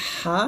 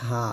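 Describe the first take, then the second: First: হা tight and pressed from mid-throat. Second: হা soft and light, unpressed; thin H. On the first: Teacher contrasting two letters for pupils, this H pressed. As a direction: squeeze the breath through the throat on হা. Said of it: "চাপ দিয়ে বলতে হয়". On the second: Teacher contrasting two letters for pupils, this H thin. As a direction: let হা out lightly, softer, throat open. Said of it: "পাতলা করে বলতে হয়". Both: Shown as a demonstration.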